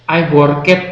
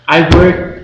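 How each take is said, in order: First: The ending is said as an extra 'et' syllable. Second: The ending is not said as an extra syllable. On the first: The speaker calls it wrong. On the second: The speaker calls it right.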